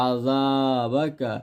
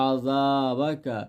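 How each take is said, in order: Both takes have the same delivery.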